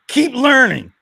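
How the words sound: It is said in a menacing, threatening way.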